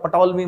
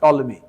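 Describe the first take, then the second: First: The name begins with a p sound. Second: The name begins with a t sound. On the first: The speaker calls it wrong. "पी silent होता, पटोलमी मत बोल देना" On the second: The speaker calls it right. "पी silent होता"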